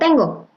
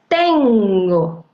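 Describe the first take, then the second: First: The word is said plainly, like normal conversation. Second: The word is said with deliberate, exaggerated emphasis. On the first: It is how a person would normally say it in conversation. "como ya lo diría normalmente una persona" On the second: It is stressed on purpose so the listener can connect the syllables. "es una entonación, justamente es premeditada"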